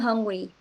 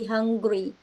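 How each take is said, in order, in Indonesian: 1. Diucapkan dengan cepat, bunyi g dihilangkan. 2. Diucapkan dengan pelan, bunyi g diucapkan. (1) "Biasanya bilangnya I'm hungry. Hil- hilang G-nya tuh pasti hilang" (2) "kalau misalnya mau dipelanin, pasti dia ada G-nya lagi"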